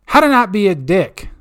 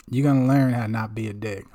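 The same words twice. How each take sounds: First: Louder, higher segment announcement; proud louder title call; hype title. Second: Said in the usual way. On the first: Acted. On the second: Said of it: "restates title".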